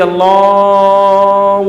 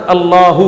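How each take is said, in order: First: The word Allah dragged out very slowly, far too long; overlong stretched call. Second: Said in the usual way. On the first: Shown as a demonstration. Preacher mocking muezzins who drag out the azan, slow stretched call. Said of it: "وہ اتنا کھینچتا ہے اذان کو". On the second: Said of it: "یہ اللہ ہی ہے".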